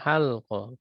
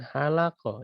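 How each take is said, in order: First: No vowel is heard between l and q. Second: An a vowel is heard between l and q. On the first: This is the common form. "Yang seringnya halqah" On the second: This is a rare form. "lamnya difathahkan, cuman jarang"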